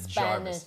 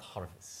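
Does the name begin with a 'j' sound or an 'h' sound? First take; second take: j sound; h sound. First: The name begins with a 'j' sound. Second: The name begins with an 'h' sound. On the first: The speaker calls it right. "It's a Jarvis" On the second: The speaker calls it wrong. "it's not Harvest"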